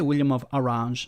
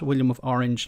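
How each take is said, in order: First: Orange sounds unlike the English fruit word. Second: Orange sounds like the English fruit word. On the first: "I say William of Orange" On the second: "not William of Orange, like orange the color or orange the the fruit"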